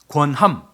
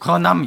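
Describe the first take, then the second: First: The word is pronounced clearly and distinctly. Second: The word is pronounced indistinctly, sounds blurred. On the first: The speaker calls it right. "권함이 아니고" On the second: The speaker calls it wrong. "권함 이렇게 들려서 발음을 명확하게"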